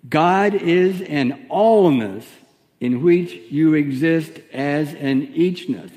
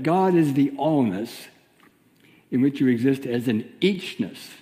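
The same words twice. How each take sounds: First: Slow, with "allness" and "eachness" leaned on hard; deliberate group recitation, punching "allness" and "eachness"; stress on allness and eachness. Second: Said in the usual way. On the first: Shown as a demonstration. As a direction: drag out "allness" and "eachness" so they sink in. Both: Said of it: "emphasize the word allness and eachness".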